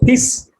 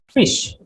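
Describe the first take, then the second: First: The word begins with a p sound. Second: The word begins with an f sound. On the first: "So for me, it was piss" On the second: "F I S H, fish, right?"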